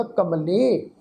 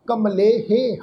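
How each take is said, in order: First: ਕਮਲੇ ending on the vowel, with the ਹ silent; correct pronunciation. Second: ਕਮਲੇਹੇ with the final ਹੇ sounded out as a full syllable; wrong pronunciation. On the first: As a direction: say ਕਮਲੇ cleanly, with no -he sound at the end. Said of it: "ਇਸ ਸ਼ਬਦ ਦਾ ਉਚਾਰਨ ਹੋਏਗਾ". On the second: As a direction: say ਕਮਲੇਹੇ, adding an extra -he at the end. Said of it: "ਇਸ ਸ਼ਬਦ ਦਾ ਅਸੀਂ ਉਚਾਰਨ". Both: Shown as a demonstration.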